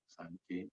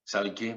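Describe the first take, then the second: First: Said in the usual way. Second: Louder, rising "¿Sabe qué?" with weight on "Sabe"; emphatic repeat. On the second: Retold or imitated. Scene: woman pressing her point to the pastor, louder. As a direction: lean in hard on "Sabe" and lift the end.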